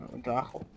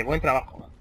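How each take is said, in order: First: Buen trabajo muttered much softer, doubting; sceptical repeat. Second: Said in the usual way. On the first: Shown as a demonstration. Gamer doubting an in-game note, soft sceptical mutter. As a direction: repeat it under your breath, unconvinced. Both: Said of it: "Ya veremos a ver si es buen trabajo o no".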